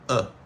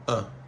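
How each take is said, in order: First: The word is reduced to a weak vowel only. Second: The word is reduced to a weak vowel only.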